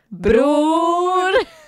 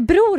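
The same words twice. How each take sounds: First: The O vowel is said long. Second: The O vowel is said short. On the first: The speaker calls it right. "nej, det är bror! ... det uttalas med ett långt O" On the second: The speaker calls it wrong. "när läraren bara, är bror här?"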